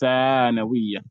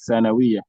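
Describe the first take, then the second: First: The first vowel is long. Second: The first vowel is short. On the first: The speaker calls it right. "Do you observe that I elongated the tha?" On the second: The speaker calls it wrong. "People usually just say"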